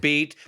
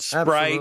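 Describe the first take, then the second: First: No R sound follows the P. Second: An R sound follows the P. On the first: The speaker calls it right. "There's no R in it" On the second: The speaker calls it wrong. "People put an R in it all the time"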